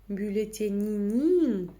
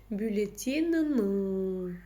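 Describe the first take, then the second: First: The vowel is a very soft 'ee' sound. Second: The vowel is between hard and soft. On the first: The speaker calls it wrong. "через букву «и» ... чересчур мягко" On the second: The speaker calls it right. "та самая мягкость, средняя"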